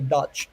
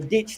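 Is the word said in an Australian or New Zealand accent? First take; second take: New Zealand; Australian. First: It is said with a New Zealand vowel. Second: It is said with a plain, unshifted vowel.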